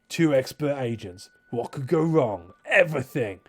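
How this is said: It is read in a put-on character voice. The speaker calls it right.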